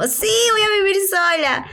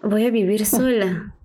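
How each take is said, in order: First: Bright, higher, eager take; giddy first take, all thrill; excited. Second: Slower, dropped, deflated take; flat dawning dread, no thrill left; sinking realization. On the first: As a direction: chirp it like great news. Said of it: "primero yo estaba como". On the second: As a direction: let it land as the truth sinks in. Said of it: "Y después fue como". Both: Retold or imitated.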